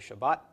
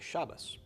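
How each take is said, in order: First: It is said with a final T sound, Sephardic style. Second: It is said with a final S sound, Ashkenazic style.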